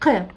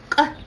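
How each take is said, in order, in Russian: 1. К простой, без выброса воздуха толчком. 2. К эжективный, воздух выталкивается изнутри. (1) "вы сейчас говорите К" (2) "Вы прям буквально изнутри выдавливаете э, воздух из себя"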